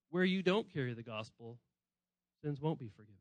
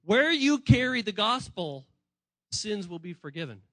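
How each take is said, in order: First: Grave, quiet. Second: Emphatic proclamation. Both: Retold or imitated. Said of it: "and he's saying".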